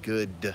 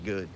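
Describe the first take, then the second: First: The final D sound is clearly pronounced. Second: The final D sound is dropped. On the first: "if you say D at the end of it" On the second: "or you just say good"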